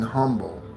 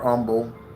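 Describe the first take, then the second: First: The h sound at the start is pronounced. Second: The h sound at the start is dropped.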